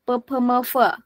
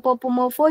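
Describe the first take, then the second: First: The letter names end in an 'e' vowel. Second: The letter names end in an 'o' vowel. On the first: "aku nyaman pakai E" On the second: "Popomovo juga bisa"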